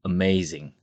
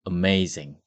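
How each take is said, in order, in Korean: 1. 첫 모음은 짧은 'uh' 소리입니다. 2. 첫 모음은 짧은 'uh' 소리입니다.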